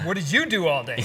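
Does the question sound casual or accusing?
accusing. It sounds sharp and accusing.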